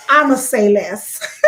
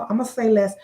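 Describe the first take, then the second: First: I'MA SAY LESS drawn out slow and loud; emphatic repeat. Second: Said in the usual way. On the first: Real, not acted. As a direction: stretch "I'ma say less" slowly and punch it louder. Repeats it pointedly, then laughs.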